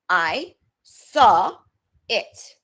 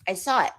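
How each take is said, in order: First: The words are separated with no linking glide. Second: The words are joined smoothly with a linking glide. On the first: The speaker calls it wrong. "I don't speak like that" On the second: The speaker calls it right. "it allows for that smooth transition"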